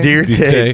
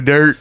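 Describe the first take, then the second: First: It is said as two syllables, deer-tay. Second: It is said as one plain syllable, dirt. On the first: The name is made to sound classier. The speaker calls it wrong. "Don't try to church it up" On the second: The name is said as it plainly is. The speaker calls it right. "Don't you mean Joe Dirt?"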